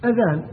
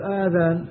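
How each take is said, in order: First: أذان with a short opening hamza, not a long aa; أذان pronounced with a short hamza and no long vowel; correct hamza. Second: آذان with a drawn-out long aa at the start; آذان pronounced with a long aa instead of a hamza; wrong long vowel. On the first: Shown as a demonstration. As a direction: say أذان with a clipped glottal a. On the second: Retold or imitated. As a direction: mimic the mistake آذان, stretching the first vowel. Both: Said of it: "ليش تقول آذان".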